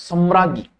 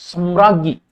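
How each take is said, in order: No difference in how they are said.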